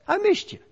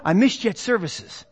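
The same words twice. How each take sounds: First: Higher, rising and softer on missed; gentle I missed you. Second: Said in the usual way. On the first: Shown as a demonstration. Church member telling an absent friend, gently. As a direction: let it lift kindly at the end. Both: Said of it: "we look out and say".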